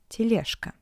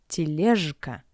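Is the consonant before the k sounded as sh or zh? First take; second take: sh; zh. First: The consonant before k is a voiceless sh. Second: The consonant before k is a voiced zh. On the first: The speaker calls it right. "sounds like sh" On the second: The speaker calls it wrong. "not тележка"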